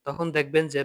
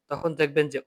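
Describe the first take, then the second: No difference in how they are said.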